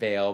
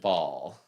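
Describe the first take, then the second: First: The vowel sounds like the one in 'mail'. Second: The vowel sounds like the one in 'all'. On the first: The speaker says it this way. "I pronounce it bail" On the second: Other people say it this way. "Some people pronounce it ball"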